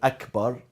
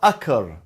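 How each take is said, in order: First: The b sound in the middle is pronounced. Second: The b sound in the middle is left out. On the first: The speaker calls it right. "rather than Akbar" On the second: The speaker calls it wrong. "he he's missing one letter"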